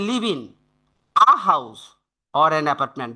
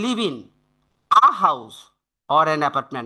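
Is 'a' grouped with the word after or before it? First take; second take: after; after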